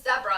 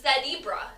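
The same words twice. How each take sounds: First: The first syllable sounds like 'zeh'. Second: The first syllable sounds like 'zee'.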